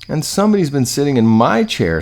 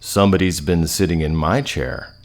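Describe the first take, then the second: First: It is a high, shrill, squeaky voice. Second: It is a deep, growling, big voice.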